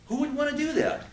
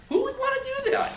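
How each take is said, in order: First: Said in the usual way. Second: Much higher, louder shouted disbelief; shouted outrage, pitched way up; incredulous shout. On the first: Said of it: "repeated question". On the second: Real, not acted. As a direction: fling the question out like you can't believe it. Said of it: "repeated, shouted".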